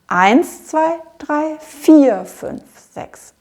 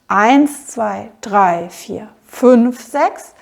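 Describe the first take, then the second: First: Stress falls on counts one and four. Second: Stress falls on counts one, three and five. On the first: The bar has two main beats. "ich betone die erste von den sechs Achteln und die vierte" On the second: The bar has three main beats. "Da zähle ich nämlich nicht"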